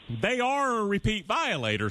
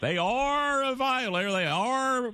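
First: They ARE, the word are leaned on hard and stretched; stress on are. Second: ARE stressed, raised higher and held in they are a violator. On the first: Host stressing to a guest that they ARE repeat violators, with emphasis. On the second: Host repeating to a guest that Tennessee ARE violators, with heavy stress. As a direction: repeat it, hitting are hard each time. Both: Shown as a demonstration. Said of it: "So even though I stress the word".

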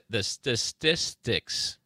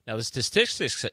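First: "statistics" sounded out slowly, syllable by syllable; slow careful pronunciation. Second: Said in the usual way. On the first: Real, not acted. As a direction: stumble slowly through "statistics". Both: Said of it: "yeah, that's a hard word".

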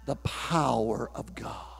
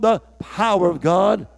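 First: Low, soft and slow: "the power of God"; hushed. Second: Said in the usual way. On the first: Acted. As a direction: drop right down, almost breathing it. Preacher drops to hush.

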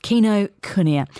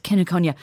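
First: "Kinokuniya" slowly, as kee-no-koo-nee-ya; corrected pronunciation. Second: "Kinokuniya" run together as ken-uh-KON-ya; "Kinokuniya" as a quick ken-a-konya; uncorrected pronunciation. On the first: Shown as a demonstration. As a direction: echo "Kinokuniya" carefully, syllable by syllable. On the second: Real, not acted. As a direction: say "Kinokuniya" with a short first vowel, ending in -konya. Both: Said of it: "What is the correct pronunciation".

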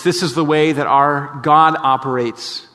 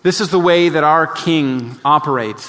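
First: God said slowly with weight; slow down and lean on "God"; slow emphatic restatement. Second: Said in the usual way. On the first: Shown as a demonstration.

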